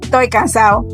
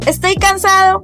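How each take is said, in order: First: Some letters are dropped from the words. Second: Every letter is pronounced in full.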